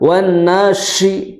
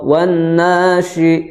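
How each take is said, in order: First: The sh sound is pushed out forcefully. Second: The sh sound is soft and weak. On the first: The speaker calls it wrong. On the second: The speaker calls it right. "Tidak terlalu dihentakan ... cukup seperti itu"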